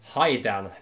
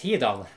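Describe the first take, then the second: First: The first vowel sounds like 'eye'. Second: The first vowel sounds like 'ee'. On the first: This is how an English speaker would read it. The speaker calls it wrong. "for the average Englishman, he will pronounce that as Haidan because of that uh, I" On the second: This is how a Norwegian or Japanese speaker would say it. The speaker calls it right. "the average Norwegian man, he would actually pronounce it as Hidan, exactly the same as Japanese"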